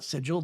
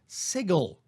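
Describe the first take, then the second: First: It uses the standard dictionary pronunciation. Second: It uses the southern phonics-based pronunciation. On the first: This is the textbook pronunciation. "While it is technically sigil in the actual dictionary" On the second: This is how it is taught in the southern United States. "according to phonics, that's not sigil, that's sigil"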